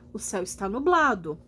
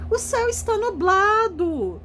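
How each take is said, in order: First: It is said as a plain, calm statement. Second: It is said with an excited, surprised tone.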